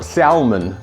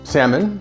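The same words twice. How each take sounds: First: The L in the word is pronounced. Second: The L in the word is silent. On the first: The speaker calls it wrong. "the way my mom used to say it" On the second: The speaker calls it right. "you don't pronounce the L"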